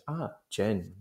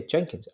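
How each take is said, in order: First: "Jenkins" pulled apart, pause after "Jen"; quieter, drawn-out "Ah, Jen ... kins"; threatening split name. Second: Said in the usual way. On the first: Retold or imitated. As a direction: repeat the name back in two menacing halves. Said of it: "separates his name in this kind of horrible".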